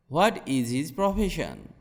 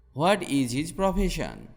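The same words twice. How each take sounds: The two takes are said the same way.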